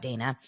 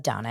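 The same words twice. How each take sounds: First: Dana said as "DAY-na" after "not"; mistaken pronunciation. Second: Dana said as "DAH-na" after "Daily Dose of"; pronounced Donna. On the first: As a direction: say the last Dana with a long "ay". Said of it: "and not Dana". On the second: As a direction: say the first Dana with an open "ah". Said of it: "pronounced Donna". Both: Shown as a demonstration.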